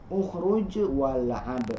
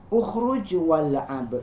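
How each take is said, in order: Both takes have the same delivery.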